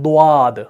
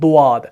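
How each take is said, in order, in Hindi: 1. होंठ गोल होते हैं, और हल्की 'व' जैसी आवाज़ जुड़ती है। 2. होंठ गोल होते हैं, और हल्की 'व' जैसी आवाज़ जुड़ती है।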